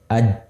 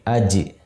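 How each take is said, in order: First: The final j ends without a bounce. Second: The final j ends with a bounce. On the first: The speaker calls it wrong. "Tidak aj" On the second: The speaker calls it right. "tapi aj"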